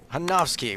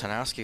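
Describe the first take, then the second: First: The name is said with a German-style pronunciation. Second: The name is said with an American-style pronunciation. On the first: The speaker calls it right. "We're going to do it the German way" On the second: The speaker calls it wrong. "we're not going to pronounce this the American way"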